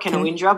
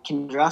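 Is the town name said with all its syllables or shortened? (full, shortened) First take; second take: full; shortened. First: The name is said with every written syllable. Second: The name is said with syllables run together. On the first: This is how the name looks written. The speaker calls it wrong. "It's spelt Canawindra" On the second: This is how locals actually say the name. The speaker calls it right. "but it's pronounced Kindra"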